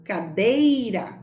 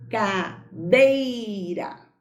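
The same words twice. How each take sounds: First: Said in the usual way. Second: "Cadeira" drawn out slowly, syllable by syllable, the "E" of "dei" leaning heavy; slow stressed demo. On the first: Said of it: "o que é que eu pronuncio com mais força?". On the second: Shown as a demonstration. Teacher to pupils, showing the stronger vowel, drawn out slowly.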